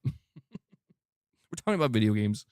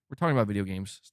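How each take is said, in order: First: Laughing, slowed right down; slow laughing emphasis. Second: Said in the usual way. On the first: Shown as a demonstration. Repeating it to a critic, slow and laughing. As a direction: lean on it with a chuckle, slowly.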